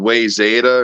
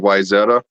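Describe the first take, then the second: First: The first syllable sounds like 'way'. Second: The first syllable sounds like 'why'. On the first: This is how someone else said it. The speaker calls it wrong. "always said way Zeta" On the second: This is the expected way to say it. The speaker calls it right. "instead of Wyzeta"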